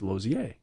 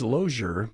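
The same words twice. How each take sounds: First: The name is said with a French pronunciation. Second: The name is said with an English pronunciation. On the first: This is the current pronunciation. "but now it's Lozier. He's, he's gone French" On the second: This was the older pronunciation. "a few years ago he was Lozier"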